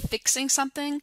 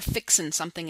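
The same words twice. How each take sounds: First: The word ends with a full ing sound. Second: The word ends with a dropped g, fixin'. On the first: "making the ing sound" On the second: "That's an articulation issue"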